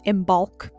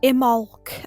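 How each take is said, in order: First: The middle b sound is clearly pronounced. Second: The middle b sound is left out. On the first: This follows the spelling with the letter B. "there's a B in there so I say Imbolc" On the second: This is how some other people say it. "Imolc as I've heard people pronounce it"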